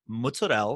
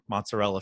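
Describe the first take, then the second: First: The word is pronounced in a fancy, showy way. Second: The word is pronounced in a plain, ordinary way. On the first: It sounds pretentious. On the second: It avoids sounding pretentious.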